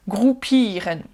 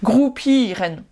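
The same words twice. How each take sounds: The two takes are said the same way.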